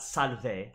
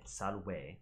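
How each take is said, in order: First: Salve with a V, SAL-veh; V sound. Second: Salve said salweh with a W; W sound. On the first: Teacher showing the wrong salve with a V. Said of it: "Not salve". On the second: Teacher giving the classical salve with a W. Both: Shown as a demonstration.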